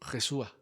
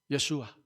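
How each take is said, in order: First: The name begins with a harsh J sound. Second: The name begins with a soft Y sound. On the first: The speaker calls it wrong. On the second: The speaker calls it right. "no se pronuncian como G, sino como Ya"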